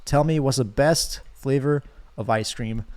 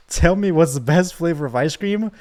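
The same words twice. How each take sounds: First: Slow, even question; lightly voiced ocean demand. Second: Hammed-up villain demand; threatening demand. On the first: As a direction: ask it slowly and calmly, barely in character. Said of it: "the ocean is still talking to me". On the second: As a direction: force the answer out of them. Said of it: "Now try it again".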